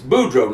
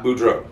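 First: The stress is on the first syllable. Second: The stress is on the second syllable. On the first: The speaker calls it right. "it's Boudreaux ... I put Boudreaux. In fastest on the first syllable" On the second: The speaker calls it wrong. "not Boudreaux"

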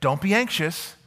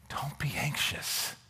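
First: It is said sternly, like a command. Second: It is said gently, like a caring father.

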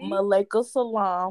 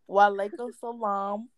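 First: The first word begins with an M sound. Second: The first word begins with a W sound. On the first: The speaker calls it wrong. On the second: The speaker calls it right.

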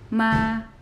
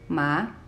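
First: The pitch stays high and level. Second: The pitch starts lower and rises. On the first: "the first tone is a high tone, and it's leveled, it's straight" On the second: "starts a little bit lower than the first tone and goes up, rising"

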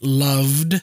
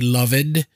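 First: The ending is not a separate syllable. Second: The ending is a separate full syllable. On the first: The speaker calls it right. "in words like loved" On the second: The speaker calls it wrong. "they would say loved"

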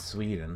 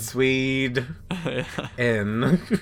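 First: The word is said at normal speed. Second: The word is said slowly with a break.

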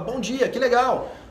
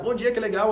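First: It is said in an excited, upbeat tone. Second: It is said in a sad, gloomy tone.

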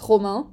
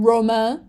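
First: The name is said with a French pronunciation. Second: The name is said with an English pronunciation. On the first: The speaker calls it right. "it's Romain" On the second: The speaker calls it wrong. "which is absolutely disgusting"

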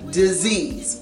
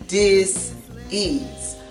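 First: It is said smoothly without any pause. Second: There is a pause between dis and ease.

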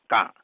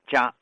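First: The word starts with a 'g' sound. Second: The word starts with a 'j' sound. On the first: "天津人就读成杆" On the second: "你要查现代汉语词典，它读成家"

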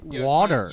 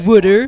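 First: The middle consonant sounds like a clear 't' and the vowel is open. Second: The middle consonant sounds like a 'd' and the vowel is rounded. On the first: The speaker calls it right. "there's no O's and there's no D" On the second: The speaker calls it wrong. "when somebody says wooder? ... Wooder is not a thing"

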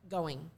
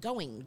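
First: The -ing ending is relaxed and softened. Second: The -ing ending is crisply over-articulated. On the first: The speaker calls it right. "Maybe just going" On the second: The speaker calls it wrong. "you kind of over-articulate your words"

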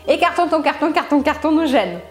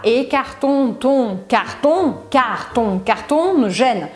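First: The phrase is said quickly, in one rush. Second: The phrase is said slowly, word by word. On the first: "aos poucos, você consegue acelerar. Até chegar... Será que você consegue mais rápido do que eu?" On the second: "Aí você vai tentando lembrar"

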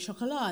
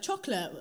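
First: The word is said with French pronunciation. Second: The word is said with English pronunciation. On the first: "originally chocolat"

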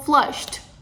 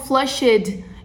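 First: The ending is just a short t sound. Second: The ending is pronounced as a full extra syllable. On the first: The speaker calls it right. "eu falo flushed, Quase que tem um som de T, porque é só um estralo" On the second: The speaker calls it wrong. "Eu não falo flushed"

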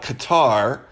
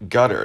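First: It is said with an American pronunciation. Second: It is said so it sounds like 'gutter'. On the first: This is how Americans say it. "a lot of us Americans call it Qatar" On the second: This is a playful local way of saying it. "the locals like to have fun with it and call it gutter"

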